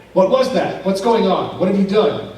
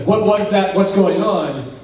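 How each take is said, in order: First: Loud, higher accusing questions; alarmed questioning. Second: Sharp, loud startled questions; jolted by a sudden bang, demanding answers; alarmed questioning. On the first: Kelly glaring back at Daryl after the bang, loud and accusing. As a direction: throw the alarm right back at him. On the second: Daryl staring at Kelly after a loud noise, startled and loud. Startled men stare at each other. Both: Retold or imitated.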